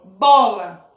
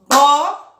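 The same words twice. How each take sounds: First: Said in the usual way. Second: "bola" slowly split as bo-la, louder; syllables split. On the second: Shown as a demonstration. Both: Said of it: "Para fazer a separação da palavra bola".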